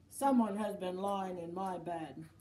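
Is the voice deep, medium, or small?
deep. It is said in a great big voice.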